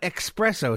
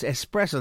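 First: It begins with a k sound before the s. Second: It begins with a plain s, no k sound. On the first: The speaker calls it wrong. "It's not espresso" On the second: The speaker calls it right. "There's no X in the word"

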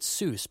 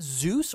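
First: The name begins with an S sound. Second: The name begins with a Z sound.

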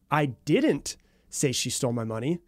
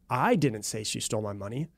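First: The stress falls on the word didn't. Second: The stress falls on the word I. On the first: The speaker is not denying the accusation itself. "implies that I'm not denying the claim or the accusation that she stole my money" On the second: Someone else said it. "implying someone else said it, but it wasn't me"

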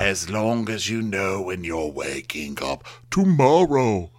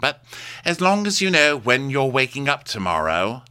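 First: It is said slowly and deliberately. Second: It is said at normal speed.

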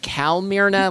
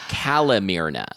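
First: The first syllable sounds like the word calm. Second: The first syllable sounds like cal, not calm.

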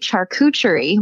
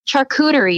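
First: A 'ch' sound is heard in the middle. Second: No 'ch' sound is heard in the middle. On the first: "I always say charcuterie with like a CH in the middle" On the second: "Charcuterie is what a lot of people say"

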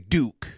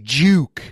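First: The name begins with a plain D sound. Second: The name begins with a J sound. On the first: This is how the speaker's own group says it. "we would say Duke" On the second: This is how the other person's accent says it. "We wouldn't say Juke like that"

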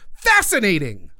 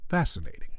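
First: It is said with loud excitement. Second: It is said coldly with subtle interest.

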